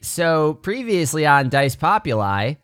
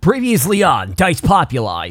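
First: It is said flatly, without drama. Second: It is said with dramatic effort.

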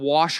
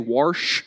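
First: It is said without an r sound. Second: It is said with an r sound.

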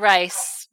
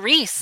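First: The name is said with an 'eye' vowel. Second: The name is said with an 'ee' vowel. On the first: This is the German family pronunciation. "I always want to say Rice" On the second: This is how the family name is now said. "it's Reese"

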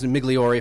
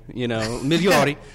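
First: It is said with a hard G and E. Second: It is said without a hard G sound. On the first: "the Americanized Migliori, hard G, hard E" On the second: "traditionally Migliori"

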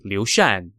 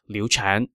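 First: The second syllable begins with a 'sh' sound. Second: The second syllable begins with a 'ch' sound. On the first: The speaker calls it right. "it should be Liu Shan" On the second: The speaker calls it wrong. "not Liu Chan"

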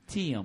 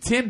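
First: The name is stretched into two syllables. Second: The name is said with one syllable. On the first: "Two syllables" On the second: "the one-syllable word"

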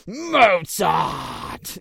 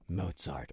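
First: It is yelled in rage. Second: It is said with awe and admiration. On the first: He was angry at Mozart. "like he was fucking pissed" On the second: He was praising Mozart as glorious. "this was glorious, like using it as like a word of adulation"

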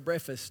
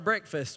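First: The word is said without the k sound. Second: The word is said with the k sound.

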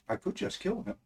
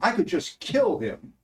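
First: It sounds like cold, serious, menacing intent. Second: It sounds like casual, exasperated venting. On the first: The speaker really means to kill. "So it's all in the inflection" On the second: It is only a figure of speech. "it's only a step from that kind of sentiment to go from saying"

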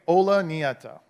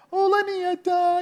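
First: It is said in a normal voice. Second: It is said in a very high pitch.

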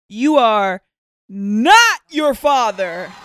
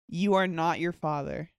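First: It is said like a dramatic talk-show announcement. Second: It is said plainly, like an ordinary remark.

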